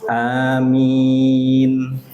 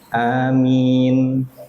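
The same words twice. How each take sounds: First: The first vowel is short, the second long. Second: Both vowels are short. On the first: "A-nya dua harokat, min-nya yang panjang" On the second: "Dua harokat, dua harokat"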